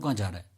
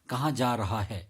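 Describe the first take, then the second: First: It is spoken very fast, with blurred words. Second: It is spoken a little fast, every word clear. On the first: The speaker calls it wrong. "मैंने इतने fast से बोला" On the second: The speaker calls it right. "इसको थोड़ा fast में बोलना है"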